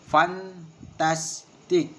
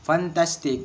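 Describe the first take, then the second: First: Fantastic drawn out very slowly as fan-tas-tic, middle beat stressed; very slow, each syllable apart. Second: Said in the usual way. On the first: Shown as a demonstration. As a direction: spell fantastic out slowly in beats. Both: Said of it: "and three syllable".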